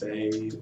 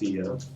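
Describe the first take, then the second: First: The name is one syllable rhyming with day. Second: The name has two syllables, ending in uh. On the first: The speaker calls it wrong. "everybody thinks that it's Faye" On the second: The speaker calls it right. "but it is Fia"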